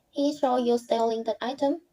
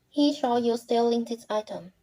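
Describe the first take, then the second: First: The voice rises at the end. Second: The voice falls at the end.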